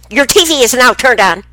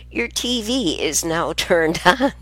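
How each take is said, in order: First: Loud, high mimic of a robotic TV voice. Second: Slower, gentler repeat of the TV line; slow retelling. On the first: Grandmother imitating the new TV's voice, loud high mimic. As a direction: blast it out like the TV announcing itself. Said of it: "she said it so fast". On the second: Retold or imitated. Grandmother repeating the TV line slowly for her listeners. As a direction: say it slowly, spelling out what the TV said. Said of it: "What I said was".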